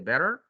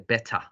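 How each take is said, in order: First: It is said with an American accent. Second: It is said with a British accent. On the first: "Americans say better" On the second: "British say better"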